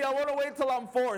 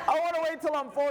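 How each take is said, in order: First: Put-on high child's pleading whine; scared little boy. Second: Even higher whining repeat of the plea; scared little boy. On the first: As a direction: plead to wait like a frightened toddler. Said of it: "crying of fear". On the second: Retold or imitated. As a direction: whine it again, more desperate. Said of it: "He's saying all this stuff".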